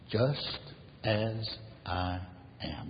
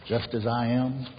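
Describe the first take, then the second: First: Slow, spaced-out words, falling softer. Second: Said in the usual way. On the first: Retold or imitated. Preacher repeats the hymn line to the congregation, word by word.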